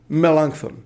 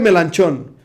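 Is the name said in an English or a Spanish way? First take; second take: English; Spanish. First: The name is said the English way. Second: The name is said the Spanish way. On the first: "en inglés es Melanchthon" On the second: "le llaman Felipe Melanchón"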